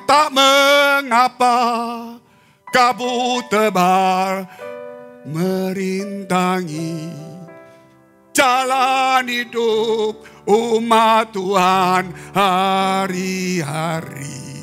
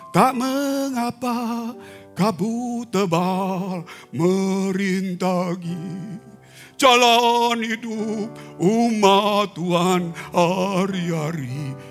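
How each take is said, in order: First: It is said in a lively, expressive voice. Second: It is said in a flat, unexpressive voice. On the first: The speaker calls it right. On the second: The speaker calls it wrong. "Tapi datar"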